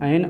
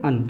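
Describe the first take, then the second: First: The vowel sounds like the e in 'pen'. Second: The vowel sounds like the u in 'fun'. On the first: "ये एन बोला जाता है वो आपका इसको British English में बोलते हैं" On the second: "जो अन बोलते हैं वो कहाँ बोलते हैं, इन अमेरिकन इंग्लिश में"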